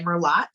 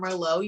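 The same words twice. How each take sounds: First: "Merlot" with a sounded final T, mer-LOT; mispronounced Merlot. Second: Said in the usual way. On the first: Shown as a demonstration. Guest shows a beginner's mistake, mispronounced Merlot. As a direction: say "Merlot" as spelt, hard T at the end. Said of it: "you may say Merlot". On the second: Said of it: "when you first see the word Merlot".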